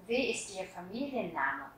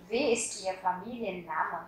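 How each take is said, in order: First: Said in the usual way. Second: Wie ist Ihr Familienname said slowly, word by word; slow model repeat. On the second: Shown as a demonstration. Teacher repeating the question slowly for students. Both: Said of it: "các bạn sẽ hỏi là".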